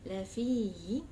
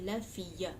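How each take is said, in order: First: The fi vowel is held long, no ya. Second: The ya is sounded as a separate syllable. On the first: The speaker calls it right. "Fi is two seconds" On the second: The speaker calls it wrong. "You don't say la fiya"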